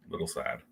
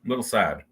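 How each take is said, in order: First: "Little sad." breathed out as a whisper; "Little sad." whispered, much lower and far softer. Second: Said in the usual way. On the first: Shown as a demonstration. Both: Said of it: "I'm a little sad about that".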